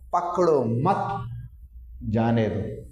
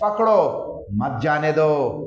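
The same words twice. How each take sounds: First: There is a pause right after 'mat'. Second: There is a pause right after 'pakdo'.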